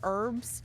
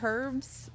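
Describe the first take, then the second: First: The word begins without any H sound. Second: The word begins with a clearly sounded H. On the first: The usual way the speakers say it. "instead of herbs" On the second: Some Europeans say it this way. "It's like a hard H"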